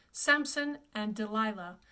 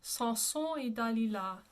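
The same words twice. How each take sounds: First: Samson and Delilah with English vowels; English title. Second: Samson et Dalila as "sah(n)-soh(n) ay da-lee-la"; French pronunciation. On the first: Teacher reads the title before correcting it, English pronunciation. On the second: Teacher gives students the whole title, French pronunciation. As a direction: join up Samson et Dalila with nasal French vowels. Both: Shown as a demonstration. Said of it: "This is actually pronounced".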